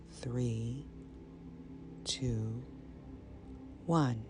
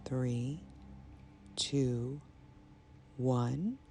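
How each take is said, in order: Both takes have the same delivery.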